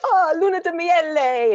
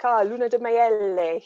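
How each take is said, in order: First: High, loud, slow Italian grandmother voice. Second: Put-on terrible Italian accent. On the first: Retold or imitated. Italian grandmother greeting the honeymooners, high and delighted. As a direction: gush it like a delighted Italian nonna. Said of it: "they'd be like". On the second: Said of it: "terrible accent, I'm sure".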